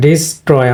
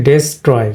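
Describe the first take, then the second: First: ডিস্ট্রয় opened with "dis", an i vowel; correct pronunciation. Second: ডেস্ট্রয় opened with "des", an e vowel; common mispronunciation. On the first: Teacher correcting the usual way for learners, correct pronunciation. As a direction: say ডিস্ট্রয় as di-STROY, falling at the end. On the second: Teacher quoting what we usually say, common mispronunciation. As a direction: say ডেস্ট্রয় as des-troy, e in place of i. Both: Shown as a demonstration. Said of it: "আমরা বলি ডেস্ট্রয়".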